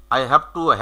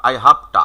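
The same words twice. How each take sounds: First: Said in the usual way. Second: "have to" squeezed into "hafta"; reduced HAVE TO. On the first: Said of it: "have to আর বলার of". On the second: Shown as a demonstration. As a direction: say "I have to" as a native shortcut, "I hafta". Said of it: "শর্টকাটে বলতে গেলে".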